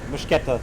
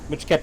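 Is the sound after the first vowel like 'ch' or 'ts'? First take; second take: ch; ch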